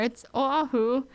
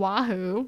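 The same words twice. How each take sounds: First: "Oahu" said oh-AH-hoo, no W; correct Hawaiian pronunciation. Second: "Oahu" said oh-WAH-hoo with a W; mock wrong pronunciation. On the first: Vlogger correcting viewers, Hawaiian pronunciation. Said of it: "it's not there". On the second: Vlogger imitating outsiders, wrong pronunciation. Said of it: "where you're getting the W from". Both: Shown as a demonstration.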